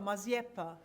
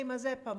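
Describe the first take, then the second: First: Maziepa with a y-glide before the e. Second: Said in the usual way. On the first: Shown as a demonstration. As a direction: say Maziepa with a ye in the middle. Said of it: "we say it Maziepa". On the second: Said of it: "Is that how we say".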